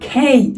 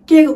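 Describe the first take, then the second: First: The K is said with a strong puff of air. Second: The K is said without a puff of air. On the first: The speaker calls it right. "উচ্চারণ কেমন হবে খেই" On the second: The speaker calls it wrong. "কে উচ্চারণ হবে না"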